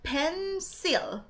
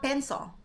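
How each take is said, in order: First: "pencil" as pen-SIL, both syllables full; Filipino pronunciation. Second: "pencil" as PEN-so, higher first syllable; corrected pronunciation. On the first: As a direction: stretch "pencil" out with a clear "sil". ("pencil" na malinaw ang "sil") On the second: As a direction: say "pencil" with the "l" melted into "o". ("pencil" na binigkas na "pen-so") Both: Shown as a demonstration. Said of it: "that's different things".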